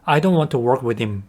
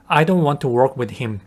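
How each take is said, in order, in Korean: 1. 'him'의 h는 발음하지 않아요. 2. 'him'의 h는 발음해요.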